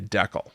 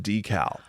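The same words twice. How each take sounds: First: The word decal is pronounced in a distorted way. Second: The word decal has its usual pronunciation. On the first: The speaker calls it wrong. "how to pronounce decal. So you say decal" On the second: The speaker calls it right. "I should say remove the decal"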